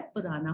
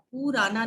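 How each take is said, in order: First: "पुराना" softer, with short "pu"; low, light "pu-raa-naa" for "पुराना"; correct pronunciation. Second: "पुराना" with long "poo"; wrong pronunciation. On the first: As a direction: keep the U of "पुराना" brief. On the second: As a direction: stretch the first vowel: "poo-raa-naa" for "पुराना". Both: Shown as a demonstration. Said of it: "पुराना नहीं होता है".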